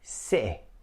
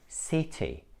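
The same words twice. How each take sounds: First: The middle T is cut off sharply. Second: The middle T is a clear T sound. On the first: "This is actually a glottal stop" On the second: "in British English, these words sound like"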